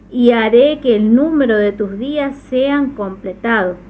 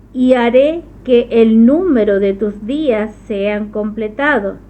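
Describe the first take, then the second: The two takes are said the same way.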